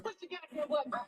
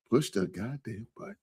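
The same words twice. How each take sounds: First: Breathy whispered nudge; mock whisper at the viewers; whispered plea. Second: Said in the usual way. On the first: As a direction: whisper it like a secret push. Urging viewers to hit like.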